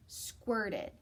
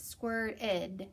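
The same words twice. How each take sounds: First: Said in the usual way. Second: Squirted with a clear ed at the end; ed ending stressed. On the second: Shown as a demonstration. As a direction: make the ed in Squirted sound out. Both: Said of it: "Ooh, listen to this".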